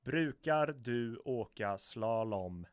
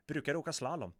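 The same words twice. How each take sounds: First: Slowed right down, every word of "Brukar du åka slalom" drawn out and loud; deliberate, stretched-out Swedish, syllable by syllable; slow reading. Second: Said in the usual way. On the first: Shown as a demonstration. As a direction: read it out very slowly for learners. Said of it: "I'm gonna read it slowly". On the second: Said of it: "I would say".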